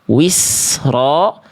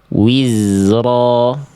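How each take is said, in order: First: The consonant is a hissing s sound. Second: The consonant is a buzzing z sound. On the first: The speaker calls it wrong. "Ini bacaan yang salah" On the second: The speaker calls it right. "Ini bacaan yang insya Allah lebih tepat"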